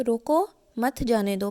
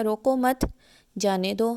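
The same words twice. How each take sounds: First: रोको, brief stop, then मत जाने दो as one; pause after रोको. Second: रोको मत together, stop, then जाने दो; pause after मत. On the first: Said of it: "पहली लाइन जो मैंने बोली है". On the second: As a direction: hold a break between मत and जाने दो. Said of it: "थोड़े से वक्फ़े के साथ". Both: Shown as a demonstration.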